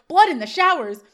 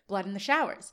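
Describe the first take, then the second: First: Louder, higher exclamation; imitated movie-fan alarm; mock shocked outburst. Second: Said in the usual way. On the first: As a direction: blurt it out in mock horror. Sean's shocked outburst, retold.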